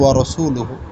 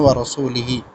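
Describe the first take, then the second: First: The word ends with the vowels u and u. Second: The word ends with the vowels i and i. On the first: God and his messenger are free of the idolaters. The speaker calls it right. "সঠিক উচ্চারণ" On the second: God is free of the idolaters and of his messenger. The speaker calls it wrong. "তিনি পড়ছেন"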